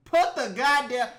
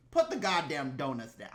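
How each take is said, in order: First: Louder, fed-up outburst; louder angry repeat. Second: Said in the usual way. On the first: Real, not acted. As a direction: bark it at the cop. Ranting at officers.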